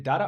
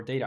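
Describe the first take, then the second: First: First "data" with an "ah" in it, not "ay"; alternate pronunciation. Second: Second "data" with first syllable like "day"; alternate pronunciation. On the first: Asking if both ways are correct, open-vowel pronunciation of data. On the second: Asking if both ways are correct, long-A pronunciation of data. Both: Shown as a demonstration. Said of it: "I've heard it said correctly".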